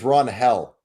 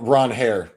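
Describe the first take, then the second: First: The name ends with an L sound. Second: The name ends with an R sound. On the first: The speaker calls it wrong. "Maybe I even pronounced it wrong" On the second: The speaker calls it right. "Ron Hare, maybe"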